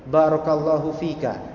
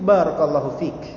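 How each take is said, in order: First: The phrase ends with a short vowel. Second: The phrase ends with a consonant. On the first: The speaker calls it wrong. "dalam percakapan itu kita tidak layak seperti itu" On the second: The speaker calls it right.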